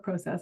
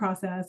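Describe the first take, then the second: First: It is pronounced the Canadian way. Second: It is pronounced the speaker's usual, non-Canadian way.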